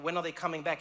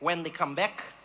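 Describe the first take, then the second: First: Said in the usual way. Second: Put-on deadpan reply in an odd Dutch-ish accent; weird Dutch-like accent. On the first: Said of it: "I was like". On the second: Local man answering about the strike, weird Dutch-like accent. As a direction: echo it back with a not-quite-Dutch accent. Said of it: "like, Dutch, but it wasn't Dutch accent".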